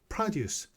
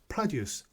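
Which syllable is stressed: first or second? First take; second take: first; first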